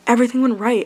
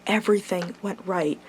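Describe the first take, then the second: First: "Everything went right" repeated with more force and lift; emphatic repeat. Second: Said in the usual way. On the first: Shown as a demonstration. Repeating it to viewers with emphatic joy. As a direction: hit "Everything" harder the second time.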